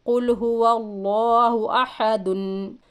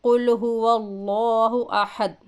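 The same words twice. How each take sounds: First: कुल हुवल्लाहु अहदुन with the final दुन sounded; connected reading. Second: कुल हुवल्लाहु अहद cut off at a silent द; stop on the dal. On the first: Teacher shows the linked reading ending in दुन. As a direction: read अहदुन through to its दुन. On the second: Teacher shows the pause at the verse end: अहद closed. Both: Shown as a demonstration. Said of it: "अहद पढ़ेंगे".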